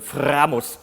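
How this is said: It is said with a German accent and strong R. "which is how you say it in German, Framus, with a big R"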